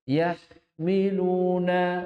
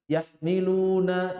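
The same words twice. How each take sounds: First: The h sound is drawn out with flowing breath. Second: The h sound is cut short without flowing breath. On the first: The speaker calls it right. "Memang harus mengalir" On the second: The speaker calls it wrong. "Dihilangkan rokhwahnya"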